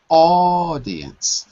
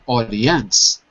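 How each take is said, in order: First: The stress is on the first syllable. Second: The stress is not on the first syllable. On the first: The speaker calls it right. "the stress is on the first syllable" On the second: The speaker calls it wrong. "not audience"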